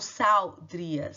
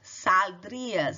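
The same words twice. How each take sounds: First: The L is vocalized like a W sound. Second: The L is a clear L, tongue raised. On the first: The speaker calls it wrong. "e não saldrias" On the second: The speaker calls it right.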